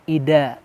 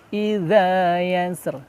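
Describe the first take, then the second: First: The middle consonant is a plain d sound. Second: The middle consonant is a soft dh sound. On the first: The speaker calls it wrong. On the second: The speaker calls it right.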